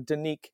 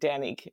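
First: It is said the American way, with a weaker A. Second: It is said the British way, with a fuller A.

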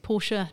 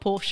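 First: The word is said with two syllables, ending in an 'uh' sound. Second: The word is said with one syllable, ending in a 'sh' sound. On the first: The speaker calls it right. "you're saying it wrong. It's Porsche" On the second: The speaker calls it wrong. "not Porsche"

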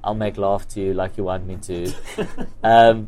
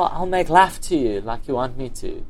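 First: Laugh is said to rhyme with love. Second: Laugh is said not rhyming with love. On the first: The title works as a pun on the song. The speaker calls it right. "It's sort of supposed to be a pun from the song" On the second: The pun on the song is lost. The speaker calls it wrong. "some people's accent, because they'll go"

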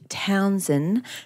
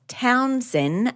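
First: The D sound in the name is pronounced. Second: The D sound in the name is dropped. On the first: The speaker calls it right. "as she says with a D throughout" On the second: The speaker calls it wrong. "not Townsend"

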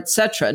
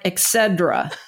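First: The word begins with a plain 'et' sound. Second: The word begins with an 'ex' sound. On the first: The speaker calls it right. "it's et cetera or et cetera. No D or X sound" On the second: The speaker calls it wrong. "like Excedrin with a different end"

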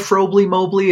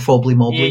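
First: The first word is said with an R sound. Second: The first word is said without an R sound.

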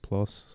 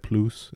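First: The word is said with an English pronunciation. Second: The word is said with a French pronunciation. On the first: "instead of plus" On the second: "French people say plus"

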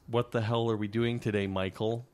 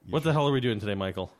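First: The question is said at a slower pace. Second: The question is said at a faster pace.

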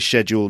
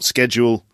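First: The word is pronounced the British way. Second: The word is pronounced a non-British way. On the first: "I do say schedule ... that's the British way of doing it" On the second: "not schedule"

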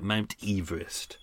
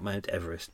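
First: The first syllable sounds like 'eve'. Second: The first syllable sounds like 'ev'. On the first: This is how the surveyor's name was really pronounced. The speaker calls it right. "We should actually call it Mount Everest" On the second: This is how people usually say the name. The speaker calls it wrong. "not Mount Everest"

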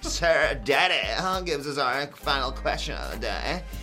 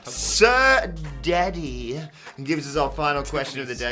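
First: It is read in a put-on imitation voice. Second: It is read in the speaker's normal voice.

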